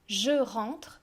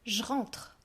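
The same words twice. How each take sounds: First: The vowel of je is fully pronounced. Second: The vowel of je is dropped, giving j'rentre.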